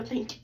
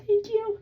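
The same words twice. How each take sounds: First: Said in the usual way. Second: "Thank you." flung up high and bright, sarcastic; mock sweet thanks. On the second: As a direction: chirp the thanks in a sugary high voice.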